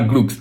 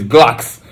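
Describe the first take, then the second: First: The vowel sounds like 'oo'. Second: The vowel sounds like 'o'. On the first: The speaker calls it wrong. "no, it's not Glooks" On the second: The speaker calls it right. "it's Glocks"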